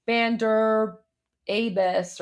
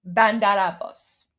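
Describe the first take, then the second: First: "Abbas" as "AY-bus", the flat anglicized way news reporters say it; mock wrong pronunciation. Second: "Bandar Abbas" with the stress on "Ban", a flat "a", and "Abbas" as "ab-BAHS"; correct Persian pronunciation. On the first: Imitating news reporters' clumsy English take on the city name. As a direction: mangle "Abbas" into "AY-bus" like a struggling anchor. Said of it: "It's not ... or I don't know".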